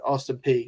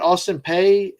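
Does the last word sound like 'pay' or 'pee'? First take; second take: pee; pay. First: The last word rhymes with 'see'. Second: The last word rhymes with 'day'. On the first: "others have called it Austin P" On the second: "some have called it Austin Pay"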